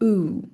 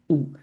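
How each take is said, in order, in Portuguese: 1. A vogal é longa e exagerada. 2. A vogal é curta e simples. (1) "mas é um pouco mais longo, exagerado" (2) "em português é U"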